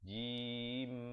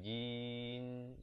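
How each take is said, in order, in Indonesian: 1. Diakhiri dengan bibir tertutup, bunyi m. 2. Diakhiri dengan bibir terbuka, bunyi n. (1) "Last kali tu mulut dia ditutup rapat" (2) "jangan tak tutup rapat pula jadi macam bunyi nun nanti"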